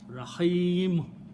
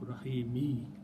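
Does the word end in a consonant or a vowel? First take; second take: consonant; vowel. First: The word ends on the bare m consonant. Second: The word ends with a short i vowel. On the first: The reader stops at this word. "its sound will change to a sukoon" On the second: The reading continues without a stop. "Rahimu has to change to Rahimi"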